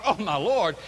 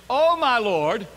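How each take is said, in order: First: Said in the usual way. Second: "Oh, my Lord" high, loud and drawn out; emphatic exclamation. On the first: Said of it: "it's the same". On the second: Shown as a demonstration. Gideon addressing the messenger, emphatic "Oh, my Lord". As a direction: cry out "Oh, my Lord" with a lifted ending. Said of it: "whether he's speaking in the context of".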